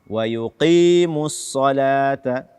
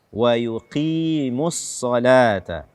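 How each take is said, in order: Both takes have the same delivery.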